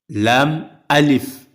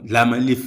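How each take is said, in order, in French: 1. Les deux parties sont gardées clairement séparées. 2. Les deux parties sont enchaînées en une seule. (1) "il faut dire lam alif" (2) "Et non"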